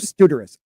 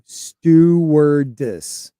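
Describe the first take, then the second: First: The word is said at normal speed. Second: The word is said very slowly.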